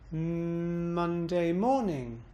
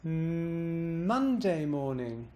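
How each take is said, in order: First: Slow, hummed start, pitch peak on "morning"; bounce on morning. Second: Long hummed M, "Monday" swoops up, "morning" glides down; slow, intoned, pitch peak on "Monday"; bounce on Monday. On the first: Teacher moving the emphasis, bouncing on morning. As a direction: intone evenly through "Monday", then swoop up and down on "morning". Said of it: "put the bounce on morning". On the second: Teacher showing emphasis choice, bouncing on Monday. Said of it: "I'm bouncing and emphasizing Monday". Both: Shown as a demonstration.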